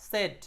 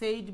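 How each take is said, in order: First: The vowel is a short 'e' sound. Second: The vowel is a long 'ay' sound. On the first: The speaker calls it right. "আসল উচ্চারণ হলো সেট" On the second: The speaker calls it wrong. "অনেকে এটাকে আমরা সেইড বলি"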